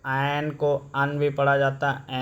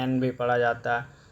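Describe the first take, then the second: First: एन said as a short अन; अन for एन, short vowel; weak form un. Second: एन said as a full en; एन with its full vowel; strong form en. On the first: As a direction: say एन as a clipped un. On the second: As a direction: say एन as the letter name en. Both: Shown as a demonstration.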